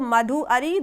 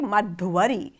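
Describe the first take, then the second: First: The u and a are said as separate vowels. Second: The u turns into a v before a. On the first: The two words are left unjoined. "the first word is having u, second word is having a" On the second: The two words are joined into one. "it would be fused together"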